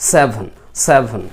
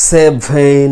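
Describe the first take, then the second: First: "সেভেন" clipped short, with no dragging; crisp and short. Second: "সেভেন" stretched slowly, vowels dragged out; drawn out, wrong. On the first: Teacher giving the correct short "সেভেন". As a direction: say "সেভেন" quick and tight. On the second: Teacher showing the wrong, stretched "সেভেন". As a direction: drag the vowels of "সেভেন" too long. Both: Shown as a demonstration. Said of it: "এরকম টেনে নিয়ে যাওয়া নয়".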